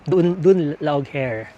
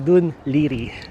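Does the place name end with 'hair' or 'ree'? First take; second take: hair; ree. First: The name is read letter by letter, ending in 'hair'. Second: The name is said as 'Dun Leery', ending in 'ree'. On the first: This is how an American reader would read the spelling. The speaker calls it wrong. "if you are an American accent or American reader ka" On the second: This is how the name is actually pronounced locally. The speaker calls it right. "Ang pagkakabasa pala ng Dun Laog Hair ay Dun Liri"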